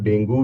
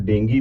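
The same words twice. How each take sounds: First: डेंगू with a clear final u, as in Dengu; say dengue as Dengu. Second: डेंगी with a final ee, as in Dengi; say dengue as Dengi. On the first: Teacher showing students one way to say it, डेंगू ending on u. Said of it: "कुछ लोग डेंगू भी बोलते हैं". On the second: Teacher showing students the other accepted way, डेंगी ending on ee. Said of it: "कुछ लोग डेंगी भी बोलते हैं". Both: Shown as a demonstration.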